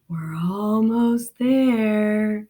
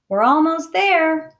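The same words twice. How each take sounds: First: It is said in a scary, creepy voice. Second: It is said in a plain voice.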